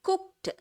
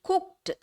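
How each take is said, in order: No difference in how they are said.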